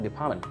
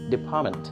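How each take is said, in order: First: The middle T sound is dropped. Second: The middle T sound is clearly pronounced. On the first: "you hear something like department" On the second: "Actually, the word is department. There is T"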